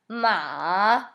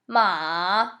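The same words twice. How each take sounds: First: The pitch dips low, then rises. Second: The pitch dips low, then rises.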